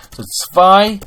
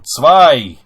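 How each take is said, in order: First: Zwei sung out high and loud; marked number. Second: Zwei punched loud, falling; retaken number. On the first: Teacher announces the number to the class, high and loud. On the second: Teacher redoes the word after a slip, loud. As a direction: hit Zwei loud and drop it. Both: Shown as a demonstration. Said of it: "Noch einmal".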